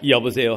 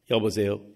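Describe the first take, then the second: First: Low, loud hello in the father's voice; father's phone hello. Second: Much lower, deep father's hello; father's phone hello. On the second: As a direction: answer the phone as the low-voiced father. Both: Retold or imitated. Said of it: "똑같은 목소리가".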